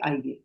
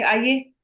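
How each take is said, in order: First: Lower, softer "Aaiye", gently falling; polite welcome. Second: Higher, sharper "Aaiye" with a rising end; rude and aggressive. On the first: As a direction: invite someone in courteously, low and easy. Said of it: "see the difference between the way I said". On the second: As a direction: summon someone rudely, pitched up and pushy. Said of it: "I was being rude and aggressive". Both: Shown as a demonstration.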